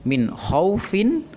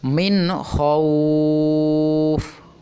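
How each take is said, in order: First: The vowel in khauf is kept short. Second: The vowel in khauf is held long. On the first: The reader continues without stopping. "dibaca pendek, tidak boleh dipanjangkan" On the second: The reader stops at this word. "Boleh dibaca panjang dua, empat, ataupun enam karena kita wakofkan"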